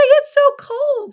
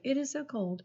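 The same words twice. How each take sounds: First: "It's so cold." shouted very high and loud; excited exclamation. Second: Said in the usual way. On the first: Shown as a demonstration. Teacher showing how an excited sentence sounds, very high and loud. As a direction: let your voice go way up on "It's so cold.". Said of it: "Your voice is gonna go up". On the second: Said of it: "you're not gonna say".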